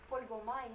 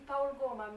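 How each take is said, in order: First: The name is pronounced the French way. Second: The name is pronounced the Romanian way. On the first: "quand on parle en français, on euh, devrait dire" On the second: "on dit Paul Goma"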